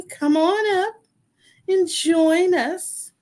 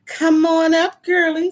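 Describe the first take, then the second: First: On leaned into, high, slow; on stretched and stressed, slow high invite. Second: Excited call-in. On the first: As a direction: Come on up with the weight on on, drawn out. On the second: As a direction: stress on Come, voice rising high and loud. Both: Real, not acted. Host calling guest on stage.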